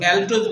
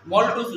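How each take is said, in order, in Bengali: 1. প্রথম স্বরধ্বনিটি 'a' ধ্বনি। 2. প্রথম স্বরধ্বনিটি 'o' ধ্বনি। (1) "কেউ কেউ এটাকে ম্যালটোজ বলে" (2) "কিন্তু আসলে মল্টোজ উচ্চারণ হবে"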